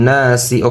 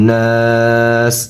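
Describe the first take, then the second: First: The word ends with a short i vowel. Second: The word ends on the s consonant. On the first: The recitation continues without stopping. "সিনজির সি" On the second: The reciter stops at this word. "অক্ফ করলে নাস"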